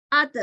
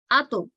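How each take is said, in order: First: "At" con ta fina, sin rebote; "At" con sonrisa, ta delgada y suelta; thin ta. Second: "ato" con ta gruesa, boca redonda y rebote; "ato" redondeando labios y rebotando; thick bounced ta. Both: Shown as a demonstration. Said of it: "listen to the difference between the two sounds".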